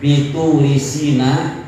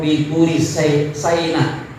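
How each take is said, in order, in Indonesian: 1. Bunyi s diikuti vokal 'i'. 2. Bunyi s diikuti vokal 'ai'. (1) "bikasri sin" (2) "wafat hiha"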